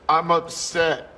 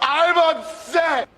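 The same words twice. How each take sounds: First: It is said quietly. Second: It is said loudly.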